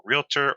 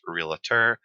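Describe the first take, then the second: First: Said in the usual way. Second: Realtor said with an extra syllable, real-uh-ter; three-syllable realtor, like REE-luh-ter; regional pronunciation. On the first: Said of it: "some people pronounce". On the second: Shown as a demonstration. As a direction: slip an "uh" into the middle of realtor. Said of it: "as some people pronounce".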